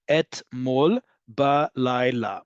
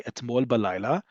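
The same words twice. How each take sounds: First: "Etmol balayla" slowly, one syllable at a time; drawn out by syllable. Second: Said in the usual way. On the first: Shown as a demonstration. Teacher showing how long the phrase is, slow syllable-by-syllable "Etmol balayla". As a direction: spell out every beat of "Etmol balayla". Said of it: "the same thing in longer Hebrew". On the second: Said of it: "five syllables".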